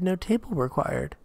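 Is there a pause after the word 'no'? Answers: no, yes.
no. It is said straight through without a pause. "But you said no table required"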